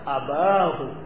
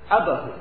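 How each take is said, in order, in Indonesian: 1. Vokal setelah b panjang. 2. Vokal setelah b pendek. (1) "kalau pada dialek yang ma'ruf, dialek yang terkenal, akan membaca abahu" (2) "Yang kedua, ini abahu"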